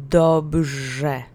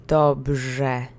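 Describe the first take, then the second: Both takes have the same delivery.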